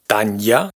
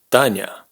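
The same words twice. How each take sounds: First: A separate y glide follows the consonant. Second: A soft consonant runs straight into a. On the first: The speaker calls it wrong. "No es Tanya" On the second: The speaker calls it right. "sino Tanya"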